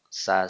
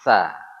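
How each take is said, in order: First: The consonant is a sharp, plain s sound. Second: The consonant is a soft, lisped th-like sound. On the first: The speaker calls it wrong. "kalau kita bilang sa lidahnya di bawah" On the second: The speaker calls it right. "mengucapkan es tapi lidahnya naik"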